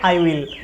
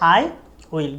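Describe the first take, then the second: First: It is said as one contracted syllable. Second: It is said as two full separate words. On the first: "short ফর্মে বলে" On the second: "full form হচ্ছে"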